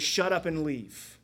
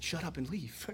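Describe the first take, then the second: First: Slow, firm dismissal; stern command. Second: Softer, mock-shocked repeat of Shut up and leave; hushed scandalized echo. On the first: Acted. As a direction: Shut up and leave, said slow and firm like an order. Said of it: "He says". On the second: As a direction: echo Shut up and leave as if the kids can't believe it. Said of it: "Pastor Nate just said".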